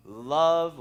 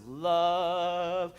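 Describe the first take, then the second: First: Said in the usual way. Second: LOVE drawn out long; LOVE lingered on like a favorite word; savoring LOVE. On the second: Shown as a demonstration. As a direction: stretch out the word LOVE with relish. Savours his favorite word.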